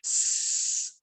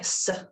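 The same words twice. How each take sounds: First: The s is a pure hiss with teeth shown. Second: The s is not said as a pure hiss. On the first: The speaker calls it right. "by showing your teeth, then you are pronouncing it the correct way" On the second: The speaker calls it wrong. "rather than um, saying it like s"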